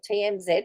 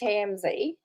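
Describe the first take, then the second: First: It is said the Australian way. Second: It is said in a non-Australian way.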